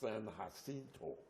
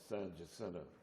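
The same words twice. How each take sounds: First: The name is said with Spanish-style sounds. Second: The name is said with English-style sounds. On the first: This is the original pronunciation of the name. The speaker calls it right. "It's a Spanish name, which really should be pronounced" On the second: This is how people locally say it. The speaker calls it wrong. "they call it"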